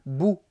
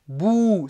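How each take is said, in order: First: The vowel is said short. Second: The vowel is drawn out long. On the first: "c'est court" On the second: "c'est long"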